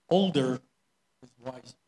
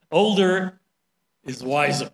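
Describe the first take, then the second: First: Said in the usual way. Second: Put-on "older" said up and loud, "wiser" falling; stress on older. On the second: Shown as a demonstration. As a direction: punch "older" to drive the saying home. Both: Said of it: "that's the Chinese culture".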